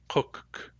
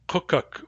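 First: The two K sounds have no vowel between them. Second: A vowel is inserted between the two K sounds. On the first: The speaker calls it right. "there is no vowel in the Nuchanoth pronunciation of that word" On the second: The speaker calls it wrong. "you will really want to stick a vowel between those two K's"

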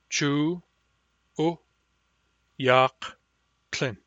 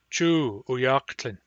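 First: Each syllable is said separately with breaks. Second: The phrase is said smoothly without breaks.

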